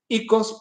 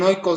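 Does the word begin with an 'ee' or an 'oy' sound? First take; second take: ee; oy. First: The first vowel sounds like 'ee'. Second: The first vowel sounds like 'oy'. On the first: "la pronunciación de, de iotización griego" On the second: "algunos dicen oikos"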